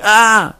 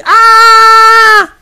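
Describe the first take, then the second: First: A short cry, raised but far smaller; a lighter shout of pain, held back; quick cry of a woman in labour; mild demo cry. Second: Piercing high scream, full force; demo scream of pain. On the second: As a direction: let out a loud cry of agony. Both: Shown as a demonstration. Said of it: "une personne qui crie".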